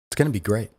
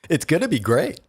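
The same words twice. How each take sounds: First: It is said in his normal voice. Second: It is said in a put-on announcer voice.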